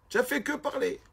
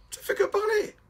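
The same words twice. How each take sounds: First: Raised pitch but a step down from the squeak, rising at the end; milder mock. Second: Very high, mocking voice, far above the speaker's usual range; mocking squeak. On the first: Rabbi repeats his jibe to the student, milder and high. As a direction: repeat the mockery, less extreme. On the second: Rabbi mocking the student's chatter, very high squeak. Rav mocks the student's praise.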